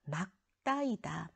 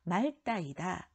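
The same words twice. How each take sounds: First: Slow "막따", final ㄱ sounded, ㄹ dropped; correct pronunciation of 맑다. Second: "말따" with ㄹ kept as the final sound; wrong pronunciation of 맑다. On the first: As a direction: say 막따이다 slowly with a tense ㄸ. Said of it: "뒤 것을 소리낸다고 했어요". (천천히 "막따"로 ㄱ 받침을 살린 발음) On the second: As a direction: say 말따이다, sounding ㄹ instead of ㄱ. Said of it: "틀렸어요". ("말따"로 ㄹ을 살린 틀린 발음) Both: Shown as a demonstration.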